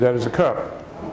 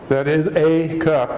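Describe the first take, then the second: First: The 'a' is a short, reduced 'uh' sound. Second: The 'a' is a full, long 'ay' sound. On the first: The speaker calls it right. "if you say it real quickly ... It's a short A" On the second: The speaker calls it wrong. "you don't say"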